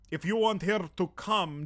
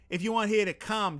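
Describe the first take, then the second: First: It is spoken in a Russian accent. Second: It is spoken in a Boston accent. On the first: "Can I do a Russian accent?" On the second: "Boston accent"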